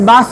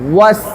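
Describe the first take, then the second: First: It starts with a b sound. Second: It starts with a rounded-lip w sound. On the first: The speaker calls it wrong. "আমি বাস কই" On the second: The speaker calls it right. "ঠোঁটটা গোল করে ওয়াস"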